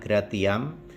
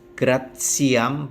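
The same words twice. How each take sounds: First: The ti is said with a plain t sound. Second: The ti is said with a ts sound. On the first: The speaker calls it wrong. "bukan gratiam" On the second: The speaker calls it right. "maka dibaca T S"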